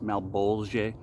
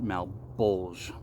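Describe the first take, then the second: First: The word is said with a French pronunciation. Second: The word is said with an American pronunciation. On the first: "In French, it's like pronounced" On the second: "being a Americano, simply call it"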